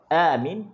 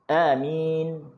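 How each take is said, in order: First: The first vowel is long, the second short. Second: The first vowel is short, the second long. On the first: It means asking for help and security. "Kalau a tu panjang, min tu pendek" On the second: It means trust. "kalau a tu pendek, min tu panjang"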